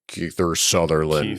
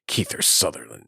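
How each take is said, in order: First: It is said in his normal voice. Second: It is said in a Venom Snake impression.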